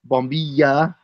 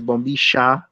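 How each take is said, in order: First: The middle consonant is a Y sound. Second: The middle consonant is an SH sound, Argentine-style.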